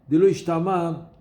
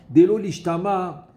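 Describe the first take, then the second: The two takes are said the same way.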